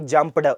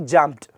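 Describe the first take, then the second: First: The ending is said as an extra separate syllable. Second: The ending is a plain t sound, no extra syllable. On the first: The speaker calls it wrong. "It should not be jumped" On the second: The speaker calls it right. "it should be jumped"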